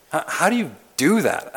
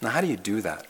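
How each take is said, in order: First: "How, how do you do that?" asked higher, with weight on "do"; stressed repeat. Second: Said in the usual way. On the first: Shown as a demonstration. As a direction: press the question home on "do".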